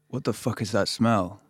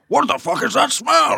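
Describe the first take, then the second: First: It is said in the speaker's normal voice. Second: It is said in an Admiral Akbar voice.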